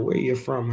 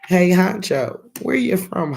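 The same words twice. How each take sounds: First: Said in the usual way. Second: High, loud call out to a viewer; excited greeting. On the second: Real, not acted. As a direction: hail him brightly from the stream.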